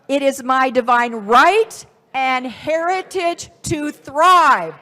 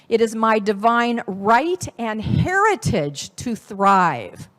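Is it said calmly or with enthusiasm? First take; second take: enthusiasm; calmly. First: It is said with enthusiasm and a whoo. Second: It is said calmly, without extra enthusiasm.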